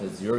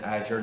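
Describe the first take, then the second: First: It is said the British way. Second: It is said the American way. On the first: "not Azure, even though we're in the U K" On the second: "I've said Azure"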